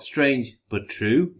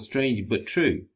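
First: The voice rises at the end like a question. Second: The voice falls at the end like a statement. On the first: The title questions whether it is true. The speaker calls it right. "With a question mark" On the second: The title makes a plain claim that it is true. The speaker calls it wrong. "I thought it was called Strange But True"

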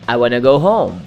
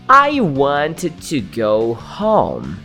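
First: It is said naturally, with 'want to' reduced to 'wanna'. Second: It is said carefully, with 'want to' in full.

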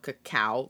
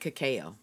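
First: The word ends with a 'cow' sound. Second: The word ends with an 'oh' sound. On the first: "like C-O-W" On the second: "it sounds like the letters in cacao"

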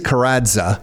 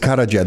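First: The middle consonant is a separate d and z. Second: The middle consonant sounds like a j. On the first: This is the local Canadian pronunciation. "Canadian way is Kradza" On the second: This is the original proper pronunciation. "The proper way is Kradza. The D and the Z, just pretend it's a J"

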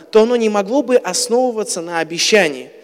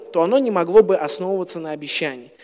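The two takes are said the same way.

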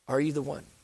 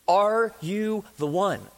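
First: It is said in a gentle, respectful tone. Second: It is said in a demanding, passionate tone.

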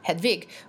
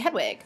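First: The name is said with German pronunciation. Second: The name is said with English pronunciation. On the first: "if you have, like, a German accent ... you would say, like, Hedwig" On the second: "we're used to Harry Potter, so we say Hedwig"

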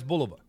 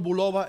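First: The name is said with an English pronunciation. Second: The name is said with a Spanish pronunciation. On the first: "en inglés" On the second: "En español"

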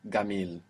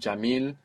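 First: It begins with a hard g, Egyptian style. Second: It begins with a j sound, standard Arabic style.

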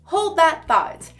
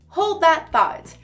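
First: The words run together in a relaxed way. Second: The same.

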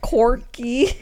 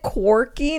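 First: The word begins with a plain k sound. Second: The word begins with a kw sound. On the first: The speaker calls it wrong. "not quirky? See, you said C-O-R-K-Y" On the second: The speaker calls it right. "Isn't it quirky"

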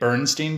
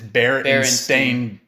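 First: The last syllable sounds like 'stine'. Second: The last syllable sounds like 'stain'. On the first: The speaker calls it wrong. "I've been pronouncing it Bernstein Bears" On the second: The speaker calls it right. "And it's Berenstain"

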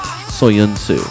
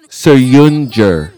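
First: The c is not pronounced like a j. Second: The c is pronounced like an English j. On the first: The speaker calls it wrong. "it's definitely not Soyuncu" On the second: The speaker calls it right. "the C in the guy's last name gets to sound like a J"

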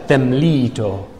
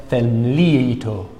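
No difference in how they are said.

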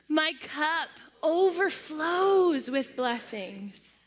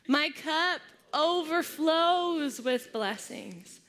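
First: It is said with strong, heartfelt conviction. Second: It is said in a plain, ordinary way.

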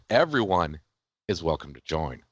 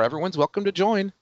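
First: It is said in a scheming, sinister tone. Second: It is said in a plain, sincere tone.

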